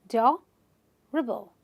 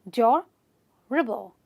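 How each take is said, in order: Both takes have the same delivery.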